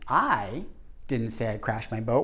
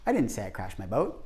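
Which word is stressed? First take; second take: I; didn't. First: The stress is on the word I. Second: The stress is on the word didn't.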